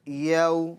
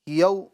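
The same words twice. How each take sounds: First: The vowel is said softly without stretching or jolting. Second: The vowel is cut off with an abrupt jolt. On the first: The speaker calls it right. "बल्कि" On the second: The speaker calls it wrong. "झटका नहीं देंगे"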